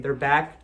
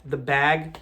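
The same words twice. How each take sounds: First: "back" ending in a hard k; pronunciation demo. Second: "bag" ending in a voiced g; pronunciation demo. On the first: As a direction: say "back" with a crisp final k. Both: Shown as a demonstration. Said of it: "It sounds the same".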